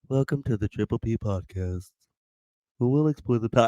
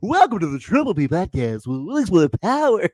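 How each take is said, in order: First: It is said in a flat, plain way. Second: It is said in a lively game-show style.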